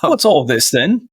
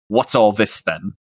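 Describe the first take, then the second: First: Slow mock-monotone with a rise at the end. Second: Even, unvarying monotone. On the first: Player imitating the Warforged sheriff's greeting, slow monotone. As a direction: echo the sheriff slowly, a little higher. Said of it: "in a monotone voice". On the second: Acted. Warforged sheriff greeting arriving adventurers, monotone. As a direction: deliver it on one level note, understated. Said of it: "just in a monotone voice".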